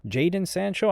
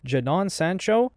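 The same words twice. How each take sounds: First: Jadon said "JAY-den", stress on the first syllable; alternative pronunciation. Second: Jadon said "juh-DON", stress on the second syllable; alternative pronunciation. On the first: Host unsure of a footballer's name, pronouncing Jadon as JAY-den. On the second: Host trying out a footballer's name, pronounced juh-DON for Jadon. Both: Shown as a demonstration. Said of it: "I don't know how it's pronounced".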